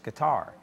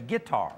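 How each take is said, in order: First: The stress is on the last syllable. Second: The stress is on the first syllable. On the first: This is the standard pronunciation. The speaker calls it right. "the correct pronunciation is with the accent on the last syllable" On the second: This is how a country speaker would say it. The speaker calls it wrong. "if I was country, I'd say"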